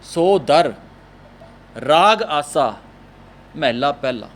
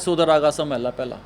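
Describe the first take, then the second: First: The words are separated by short pauses. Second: The words run together without any breaks. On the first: "ਇਸ ਤਰ੍ਹਾਂ ਰੁਕ ਕੇ ਪੜਾਂਗੇ" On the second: "ਅਸੀਂ ਇਸ ਤਰ੍ਹਾਂ ਪੜ੍ਹ ਜੰਨੇ ਹਾਂ"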